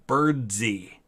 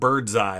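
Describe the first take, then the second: First: The name ends with an 'ee' sound. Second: The name ends with an 'eye' sound. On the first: This is how the man himself said it. The speaker calls it right. "I believe he pronounced his middle name Birdsey" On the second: This is how the spelling suggests it is said. The speaker calls it wrong. "not Birdseye like it looks like"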